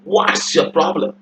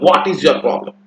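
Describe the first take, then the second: First: 'What is' is contracted into one short word. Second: 'What is' is said as two full words. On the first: The speaker calls it right. "कैसे बोलना है" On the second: The speaker calls it wrong. "ऐसे नहीं बोला"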